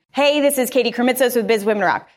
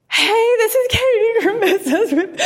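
First: Said in the usual way. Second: High, slow, half crying and half laughing; mimicking her own tearful first intro, giggling; tearful laughing retake. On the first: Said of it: "he literally line fed me". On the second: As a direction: replay the crying first take through a laugh. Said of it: "I am crying on my first".

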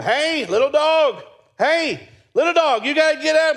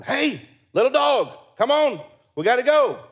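First: Much higher, louder pleading calls; urgent calling. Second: Calling the dog. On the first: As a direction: try harder to wake the dog. Urgent calls to dead-seeming dog. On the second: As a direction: coax the motionless little dog. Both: Retold or imitated.

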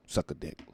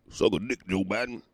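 First: Said in the usual way. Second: Giggling through the insult; laughing insult. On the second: Real, not acted. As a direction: laugh it out at Joe Biden.

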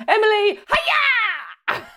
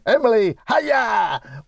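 First: Shrieked parrot greeting; squawking parrot. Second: High mimicked parrot greeting; mock parrot announcement; imitated parrot squawk. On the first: Acted. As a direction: squawk it out like a parrot, stretching "hiya". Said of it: "Squawking. So they'd be brilliant at announcing me". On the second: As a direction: copy the squawk, pitched well up.

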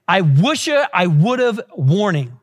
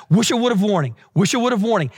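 First: Slow, spaced-out "I wish I would've warning"; slow phrasing. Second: Quick run-together "wish I would've warning", repeated; really fast. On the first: Preacher introducing a warning to young people, slowly and deliberately. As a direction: draw out "I wish I would've", then drop on "warning". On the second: Preacher has the congregation say the phrase fast, rapid-fire. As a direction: rattle off "wish I would've warning" as one catchphrase. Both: Shown as a demonstration. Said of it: "Say that really fast".

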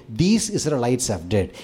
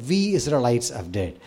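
First: "These" stressed with a rising tune, setting others apart; "These" lifted and pointed, blaming others. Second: "We" stressed, owning the sin together; "We" leaned on with a humble falling tune. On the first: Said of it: "He didn't say". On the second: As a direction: hit "We" firmly to take responsibility. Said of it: "He said". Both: Shown as a demonstration.

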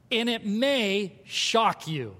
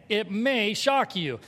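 First: Slow emphatic. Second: "shock" leaned on, slow and deliberate; slow emphatic repeat. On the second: Pastor repeating it slowly for the congregation, stress on "shock". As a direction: drive the word "shock" home slowly. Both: Shown as a demonstration. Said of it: "Say that again".

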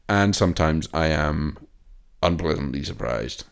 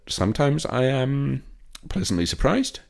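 First: Said in the usual way. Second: Sing-song hopeful. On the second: Acted. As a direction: draw it out brightly, hoping for the best. Hopeful Dolittle review remark.

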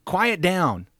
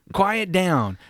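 First: Firm, sharp order to hush; stern command. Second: Louder, higher order to hush; stern command. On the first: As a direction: bark it as a command. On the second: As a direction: say it as a command, not comfort. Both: Shown as a demonstration. God ordering the anxious people to hush, firm command. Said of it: "it's very much a command".

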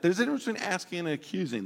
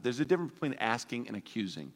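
First: Quicker, more insistent take; faster repeat. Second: Said in the usual way. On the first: Shown as a demonstration. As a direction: rattle it off as a pointed reminder. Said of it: "watch that".

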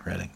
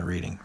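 First: "Reading" said RED-ing; "Reading" with a short e, as the town; correct town pronunciation. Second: "Reading" said REED-ing; "Reading" with a long ee; wrong pronunciation. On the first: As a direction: say "Reading" to rhyme with wedding. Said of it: "I said that right". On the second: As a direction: say "Reading" like reading a book. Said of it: "I said that right. Not Reading". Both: Shown as a demonstration.

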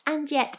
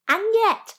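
First: "and yet" dropped quieter, still a bit high; softer echo. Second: Emphatic and yet. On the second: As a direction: leap up high on "yet". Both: Shown as a demonstration. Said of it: "repeated and yet".

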